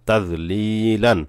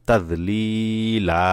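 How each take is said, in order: First: The word ends quickly with an n sound. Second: The word ends with a lengthened a vowel. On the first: The reading continues without stopping. "তানবিন উচ্চারণ তাড়াতাড়ি পড়তে হয়" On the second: The reading stops on this word. "এখন যদি এখানে ওয়াকফ করা হয় অর্থাৎ থামা হয়"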